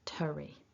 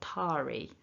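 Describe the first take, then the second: First: The vowel is a weak, reduced schwa. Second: The vowel is full and strongly pronounced. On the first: The speaker calls it right. "Keep it weak" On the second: The speaker calls it wrong. "over-pronouncing that"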